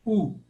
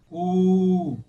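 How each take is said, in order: First: U said as one short 'oo'; brief isolated U for students to repeat; short vowel. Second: U held long and loud as 'oooo'; long vowel. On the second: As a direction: stretch U into a steady long 'oo'. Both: Shown as a demonstration. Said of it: "eu vou falar pausadamente, som por som".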